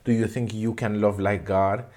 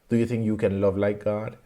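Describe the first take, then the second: No difference in how they are said.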